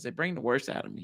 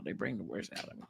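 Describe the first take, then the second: First: Said in the usual way. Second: Much softer, quicker repeat under the breath; muttered aside. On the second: Real, not acted. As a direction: mutter it again to yourself.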